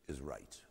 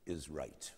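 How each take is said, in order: First: "is" hit and falling, then "right" dropped soft; stress on IS. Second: "is" stressed with a falling close, "right" soft; weight on "is", trail off on "right". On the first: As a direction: lean on "is", let "right" fall away quietly. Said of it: "great line from his essay on man". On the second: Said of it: "In other words". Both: Shown as a demonstration.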